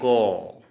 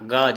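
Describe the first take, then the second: First: The vowel after the consonant is an o. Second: The vowel after the consonant is a short a. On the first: "असमिया में ओ ओ उच्चारण होगा" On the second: "Hindi में अ अ उच्चारण होगा"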